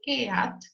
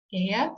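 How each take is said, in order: First: "eat" read letter by letter in Spanish, "e-at"; pronunciado como se escribe. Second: "eat" as one English syllable with long ee, "eet"; pronunciación inglesa. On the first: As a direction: say "eat" slowly as two syllables, eh-at. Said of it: "se escribe". ("eat" leído a la española, "e-at") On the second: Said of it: "se pronuncia eat". ("eat" pronunciado en inglés, "iit") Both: Shown as a demonstration.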